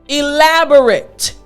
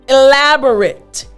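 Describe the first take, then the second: The two takes are said the same way.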